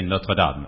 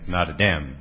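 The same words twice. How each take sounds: First: It is said with the speaker's native pronunciation. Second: It is said with the American pronunciation. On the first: "we say Notre Dame" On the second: "I heard in this country saying Notre Dame"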